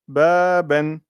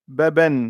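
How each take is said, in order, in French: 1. La première voyelle est allongée. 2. La première voyelle est courte. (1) "quand je mets la prolongation" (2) "Imaginez que j'ai pas la prolongation là"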